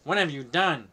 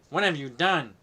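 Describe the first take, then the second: First: It is read in a put-on character voice. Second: It is read in a put-on character voice.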